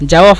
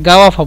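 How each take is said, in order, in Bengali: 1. শব্দটি j ধ্বনি দিয়ে শুরু হয়। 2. শব্দটি hard g ধ্বনি দিয়ে শুরু হয়।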